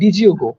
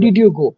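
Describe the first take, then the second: First: The d and y merge into a j sound. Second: The d and y are said separately. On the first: "নেটিভরা এটাকে বলে" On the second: "যেমন আমরা বলতে পারি"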